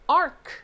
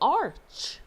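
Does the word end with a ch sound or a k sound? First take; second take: k sound; ch sound. First: The word ends with a k sound. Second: The word ends with a ch sound. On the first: The speaker calls it wrong. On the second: The speaker calls it right.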